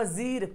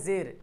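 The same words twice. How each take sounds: First: जीर with a long ee, "zeer"; spelling pronunciation. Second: जेर with an e, "zer"; usual spoken form. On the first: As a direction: stretch the ee in जीर. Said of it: "लिखा हुआ". (जीर में ई खींचकर) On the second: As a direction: say जेर with e, not ee. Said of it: "पढ़ते हैं". (जेर में ए की आवाज़) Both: Shown as a demonstration.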